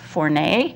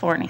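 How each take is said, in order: First: The name is said the French way. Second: The name is said the American way.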